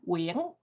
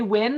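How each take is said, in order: First: The name has a Vietnamese pronunciation. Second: The name sounds like the English word win. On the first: "how to pronounce it properly in Vietnamese. I'll say it again" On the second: "if you say Win, that's pretty close"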